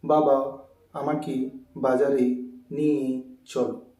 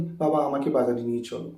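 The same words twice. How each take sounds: First: Slow, simple-minded stilted delivery; silly word by word. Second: Quick, connected everyday speech; natural speed. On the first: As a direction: plod through it one word at a time. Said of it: "বোকা বোকা ভাব". (বোকা বোকা ভাবে, থেমে থেমে) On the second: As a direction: say it in one smooth run. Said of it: "আমরা এরকম স্পিড করে কথা বলি।". (স্বাভাবিক গতিতে, টানা) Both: Shown as a demonstration.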